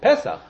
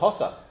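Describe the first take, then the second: First: The first vowel sounds like 'e'. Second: The first vowel sounds like 'o'. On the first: The word is in its usual, non-pausal form. "It's Pesach" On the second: The word stands at the strongest pause in the verse. "When do we ever call it posach?"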